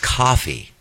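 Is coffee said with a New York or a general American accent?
general American. Coffee is said with a general American accent.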